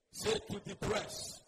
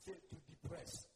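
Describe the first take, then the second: First: Slow, firm call to repeat; louder prompt. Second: Soft, low cue to repeat; quiet prompt. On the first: Shown as a demonstration. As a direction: press the congregation to say it up. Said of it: "say it louder". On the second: Real, not acted. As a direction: prompt the congregation softly. First, quiet prompt to congregation.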